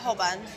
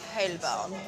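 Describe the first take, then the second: First: The name is said in an ordinary, everyday way. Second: The name is said in a posh, upper-class way.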